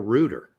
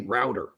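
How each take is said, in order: First: It is said in the British way. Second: It is said in a non-British way. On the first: "They call it a rooter" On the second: "in England, they don't say router"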